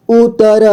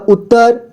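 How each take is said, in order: First: "उत्तर" split as u-ta-ra; beginner's reading of "उत्तर" as u-ta-ra; sounded out letter by letter. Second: Said in the usual way. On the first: Shown as a demonstration. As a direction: separate the syllables of "उत्तर". Teacher sounds out, then reads whole.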